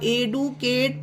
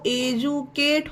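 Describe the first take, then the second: First: The middle consonant is a plain 'd' sound. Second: The middle consonant is a 'j' sound. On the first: The speaker calls it wrong. "एडुकेट पढ़ना गलत होगा इसे" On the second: The speaker calls it right. "डी के बाद ही A T E आया तो एजुकेट होगा"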